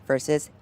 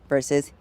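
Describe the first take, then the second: Both takes have the same delivery.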